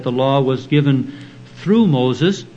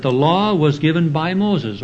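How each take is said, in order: First: Through lifted with a rising tune; stress on through. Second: Said in the usual way. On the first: Shown as a demonstration. Preacher correcting the translation, stress on through. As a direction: lean on through to correct the wording. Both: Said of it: "or rather the word there is".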